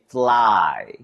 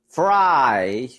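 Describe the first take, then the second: First: The word starts with an L sound. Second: The word starts with a clear R sound. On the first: "you'll hear us say fly" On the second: "instead of fry"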